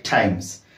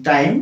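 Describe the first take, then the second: First: "times" with an added S sound at the end; times with final S. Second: "time" ending cleanly on M; time without S. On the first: Teacher warning of a common slip, "times" with added final S. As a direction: say "times", closing on S. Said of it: "ଟାଇମ୍ ନ କହିକି ଟାଇମ୍ସ କୁହେ". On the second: Teacher contrasting two forms heard, "time" ending on M. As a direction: say "time" with no final S. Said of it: "sometimes you can hear the word like". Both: Shown as a demonstration.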